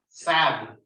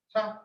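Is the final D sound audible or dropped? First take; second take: audible; dropped. First: The final D sound is clearly heard. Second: The final D sound is dropped. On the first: The speaker calls it right. "you have to hear the D" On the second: The speaker calls it wrong. "We can't say sad"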